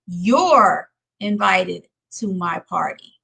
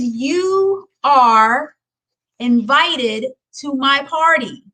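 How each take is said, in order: First: The two words are joined into one syllable. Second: The two words are said separately in full. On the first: The speaker calls it right. "I'm going to say you're" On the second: The speaker calls it wrong. "I don't want to work you are"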